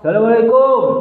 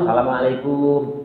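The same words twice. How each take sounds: First: The greeting is said fairly loudly. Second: The greeting is said softly and quietly. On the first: "yang ketiga agak keras" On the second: "ya pelan pelan aja dulu"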